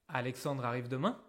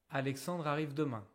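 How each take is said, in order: First: The voice rises at the end. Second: The voice falls at the end. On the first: It is a question. "C'est une question" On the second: It is a statement of information. "C'est une information"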